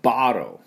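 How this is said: The middle t is nearly silent, American style. "アメリカ人の発音になりますと、bottle、bottle です。T ほとんど発音しません。"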